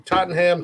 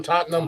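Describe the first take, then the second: First: "Tottenham" in three syllables with a clear "ham"; full-HAM pronunciation. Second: "Tottenham" squeezed to "TOT-num"; swallowed ending. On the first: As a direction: sound out the h and full vowel ending "Tottenham". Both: Shown as a demonstration. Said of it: "Either way".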